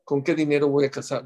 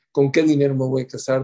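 First: Said in the usual way. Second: "qué" marcado y más fuerte; acento en qué. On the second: Shown as a demonstration. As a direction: enfatiza "qué" con más volumen. (subraya "qué" al repetir la pregunta)

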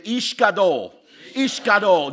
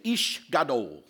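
First: "Ish Gadol" punched out louder with passion; fervent, much louder "Ish Gadol". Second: Ish Gadol, said slowly and carefully. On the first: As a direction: declare "Ish Gadol" like it matters. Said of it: "Say it like passion". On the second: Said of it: "I want everybody to say". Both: Shown as a demonstration.

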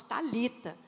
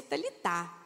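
First: Talita stressed on the middle syllable, ta-LI-ta. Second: Talitá stressed on the last syllable, ta-li-TÁ; final stress on Talitá. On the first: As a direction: say Talita with the stress on LI, soft final a. Contrasts common and literal pronunciation of name. (Talita com a tônica no LI) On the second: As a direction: say Talitá landing on an open final TÁ. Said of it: "no português literal se pronuncia Talitá". (Talitá com a tônica no TÁ final) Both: Shown as a demonstration.

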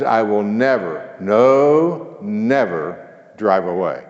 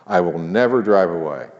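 First: "I will never, no, never drive away" slowed and stressed; stress on double never. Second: Said in the usual way. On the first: Shown as a demonstration. Preacher slowing to stress "never, no, never" for the congregation. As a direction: lean hard on "never" and "no". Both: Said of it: "actually the translation is".

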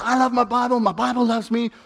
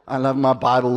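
First: Heartfelt. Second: Said in the usual way. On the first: Shown as a demonstration. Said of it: "can really do that with all your heart". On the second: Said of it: "it just feels weird to say".

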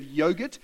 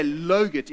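First: Said in the usual way. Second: "logurt" beginning with L, not Y; child's mispronunciation. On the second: Retold or imitated. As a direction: swap the Y for an L in "logurt". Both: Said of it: "she'd say logurt instead of yogurt".

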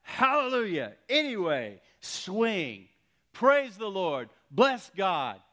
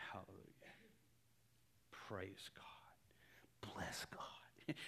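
First: High, loud preacher's shouts of praise; full-voiced, punched praise shouts; shouted praise. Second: Barely audible, whispered praise; very soft, tentative imitation of praying; hushed praise. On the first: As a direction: shout each phrase out in triumph. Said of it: "He begins to shout". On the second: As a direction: start praising under the breath. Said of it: "he starts to say".

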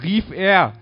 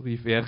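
First: High, very loud cry; excited full-volume call; shouted. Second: Said in the usual way. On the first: A narrator's reading. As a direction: shout it as an exclamation.

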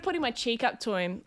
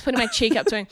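First: Slightly fainter, turned away from the microphone; off mic. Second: Said in the usual way. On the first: Real, not acted. Comedian demonstrates offering her cheek, drifting off mic. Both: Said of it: "Oh, sorry, I went away from it".

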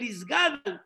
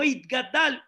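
First: Isgadal said with an S, "is-GA-dl"; hiss-free but clear S in Isgadal, last vowel swallowed. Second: Itgadal said with a T, "it-ga-DAL". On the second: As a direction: sound the T and the full final syllable in Itgadal. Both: Shown as a demonstration. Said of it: "No importa cómo lo pronuncian".

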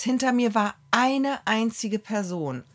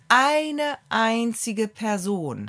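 First: Said in the usual way. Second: Eine einzige Person dragged out slowly, each word weighted; slow emphatic repeat. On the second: Shown as a demonstration. Telling a friend about the nearly empty queue, slow and weighted.

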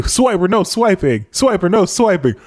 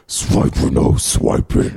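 First: Chanted, higher sing-song cartoon kid call. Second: Whispered sneaky weasel voice; sly hissing weasel. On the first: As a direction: chant it like the show. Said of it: "When they say". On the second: Retold or imitated. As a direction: hiss it slyly like a sneaky fox. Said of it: "nasally, like, weasel voice".

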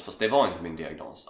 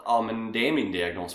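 First: Var stressed, falling end. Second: Är stressed. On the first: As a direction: lean on "var" then let it fall. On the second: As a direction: lean on the word "är". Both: Shown as a demonstration.

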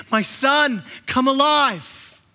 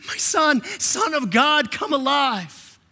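First: Slow, stretched call, a touch higher; solemn call to come alive; voice of the Father. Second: Higher, slow, ringing call; exalted call from the Father. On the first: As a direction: call him out of death slowly. Father calling Jesus to life. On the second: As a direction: lift it up and stretch come alive. Father calling Jesus again. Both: Acted.

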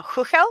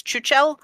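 First: "Huchel" said with an opening H sound; Czech pronunciation. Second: "Chuchel" said with an opening CH sound; spelling pronunciation. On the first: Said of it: "it's pronounced Huchel in Czech". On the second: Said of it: "because that's how it's spelled". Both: Shown as a demonstration.

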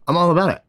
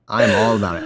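First: Said in the usual way. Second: "I am" said in full, lower and firm, stress on "I". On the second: Shown as a demonstration.

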